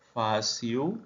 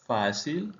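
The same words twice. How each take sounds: First: "fácil" with the final l softened to a u, like fasiu; Portuguese pronunciation. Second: Said in the usual way. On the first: Shown as a demonstration. Teacher models the Portuguese word for Spanish speakers, final l as u. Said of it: "fácil /fasiu/ vs /fasil/". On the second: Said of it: "fácil /fasil/".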